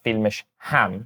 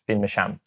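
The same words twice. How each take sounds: First: The h sound before ham is pronounced. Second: The h sound before ham is dropped. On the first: The speaker calls it wrong. "it's not filmisham" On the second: The speaker calls it right. "it's just filmisham"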